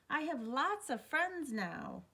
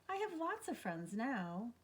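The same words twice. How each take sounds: First: It is said very loudly. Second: It is said at a normal, quiet level.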